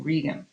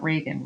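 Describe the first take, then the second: First: Regan with ee in the first syllable; correct Regan pronunciation. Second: Reagan with an ay vowel, RAY-gun; wrong Regan pronunciation. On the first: Teacher repeats the character's right name after the mistake, Regan as REE-gun. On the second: Teacher showing students the mistake to avoid, Reagan said RAY-gun. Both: Shown as a demonstration. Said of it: "not Reagan".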